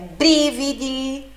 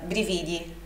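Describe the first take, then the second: First: The stress is on the first syllable. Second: The stress is on the second syllable. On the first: The speaker calls it right. "sílaba forte na primeira sílaba" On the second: The speaker calls it wrong. "Nós tendencialmente leríamos essa palavra brividi como brividi"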